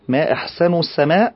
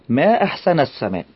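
First: The n of ahsan carries a u vowel. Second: The n of ahsan carries an a vowel. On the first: It asks what the finest thing in the sky is. "أنت تسألين ما هو أحسن شيء في السماء" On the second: It exclaims how beautiful the sky is. "إن تعجبت فقولي ما أحسن السماء بفتح النون"

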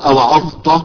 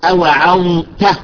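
First: The final t is heavy and thick. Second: The final t is light and thin. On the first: The speaker calls it wrong. "مو أوعظت" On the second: The speaker calls it right. "التاء يجب أن تكون مرققة"

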